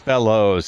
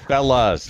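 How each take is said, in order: First: The word ends with a full 'oh' vowel. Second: The word ends with a short 'uh' vowel. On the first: The speaker calls it wrong. "not fellows. It's not proper English" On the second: The speaker calls it right. "Yes, fellas"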